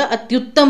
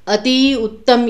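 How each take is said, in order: First: अति and उत्तम fused into अत्युत्तम; अत्युत्तम with the joined त्यु. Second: अति and उत्तम said apart, slowly; slow unjoined अति उत्तम; अति उत्तम as two words. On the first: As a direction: run अति into उत्तम as one word. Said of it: "अत्युत्तम नहीं होता". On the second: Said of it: "ये तो बिल्कुल ही गलत है". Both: Shown as a demonstration.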